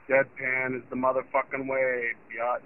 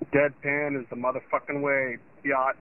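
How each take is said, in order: First: It is said flat and expressionless. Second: It is said with lively, expressive delivery.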